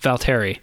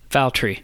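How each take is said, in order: First: "Valtteri" in three syllables, val-TEH-ree; full "Valtteri", val-teh-ree; three-syllable pronunciation. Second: "Valtteri" as two syllables, VAL-tree; shortened "Valtteri", val-tree; two-syllable pronunciation. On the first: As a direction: sound the middle vowel of "Valtteri". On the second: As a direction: run "Valtteri" together without its middle vowel. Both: Shown as a demonstration. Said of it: "two syllables instead of Valtteri".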